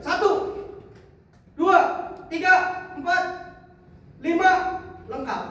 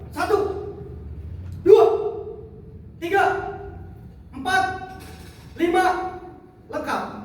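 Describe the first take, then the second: First: The count mixes fast and slow numbers. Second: The count is slow and evenly paced.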